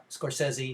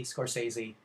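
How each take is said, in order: First: Scorsese as "score-SEZ-ee", short E; short-E pronunciation. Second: Scorsese as "score-SAY-zee", long A; long-A pronunciation. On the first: Lecturer showing one of both ways, short-E pronunciation. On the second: Lecturer showing the other way, long-A pronunciation. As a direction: say Scorsese with SAY in the middle. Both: Shown as a demonstration. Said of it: "pronounce it both ways".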